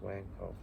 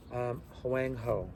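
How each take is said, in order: First: Huangho said again, softer, as an afterthought; quiet repeat. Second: Huangho slowly and clearly, like dictating a name; careful pronunciation. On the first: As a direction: repeat Huangho softly to close the point. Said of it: "That's in the Pinyin translation system". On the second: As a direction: spell out Huangho syllable by syllable for the class. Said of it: "H W A N G H O". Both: Shown as a demonstration.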